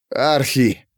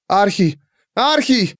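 First: Understated strained call; choked call. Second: High-pitched call, rising higher; summoning cry. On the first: Alcibiades starting to choke, strained call. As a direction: squeeze the name out against a cough. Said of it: "выдавил он сквозь начавший его душить кашель". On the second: Pandora calling through the half-open door, high cry. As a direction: call the name into the doorway. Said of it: "призывно крикнула Пандора". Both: A narrator's reading.

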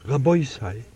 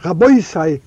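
First: "Rabbi sei" said soft and much quieter. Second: Sharp and cutting, a little louder; sharp piercing voice. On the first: Defender's gentle opening word to the heavenly court, soft and quiet. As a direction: ease the words out gently. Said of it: "gemacht a weich Kohl". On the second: Accuser's opening word to the heavenly court, sharp and cutting. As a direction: cut in sharply, then break off. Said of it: "hebt an a scharf stechende". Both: A narrator's reading.

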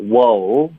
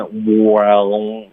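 First: Slow "wow", relaxed, through the mouth; relaxed oral vowel. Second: Slow "wow" pushed through the nose; overdone nasal. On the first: Shown as a demonstration. Teacher modelling for student, relaxed "wow". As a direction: let "wow" come out of the mouth, drawn out. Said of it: "要稍微放松一点". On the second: Retold or imitated. Teacher imitating student's habit, nasal overdone "wow". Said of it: "很多的音呢是从鼻腔出来".

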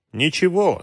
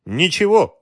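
First: Inward spite, pitched higher; a touch of anger in a private thought; understated sudden spite. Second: Light smiling reply, high and louder. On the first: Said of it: "с неожиданной злостью подумал". (сдержанная внезапная злость, повыше) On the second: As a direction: brush the question off with a smile. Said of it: "улыбнулся командир". (с улыбкой, высоко и громче) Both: A narrator's reading.

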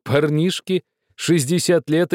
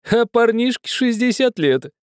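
First: Шестьдесят stretched out slowly on a high pitch; stress on шестьдесят. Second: Шестьдесят pushed far up and held; stress on шестьдесят, very high. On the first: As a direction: lean on шестьдесят, slow and high. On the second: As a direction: peak the voice on шестьдесят. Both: A narrator's reading. Host repeats the phrase.

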